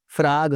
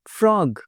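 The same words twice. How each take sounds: First: फ्रॉग with an open "aa", "fraag"; mispronunciation. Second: फ्रॉग with a rounded "o", high falling pitch; correct pronunciation. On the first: (फ्रॉग को "फ्राग" बोलें) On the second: (फ्रॉग में गोल "ऑ") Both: Shown as a demonstration. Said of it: "बिल्कुल नहीं".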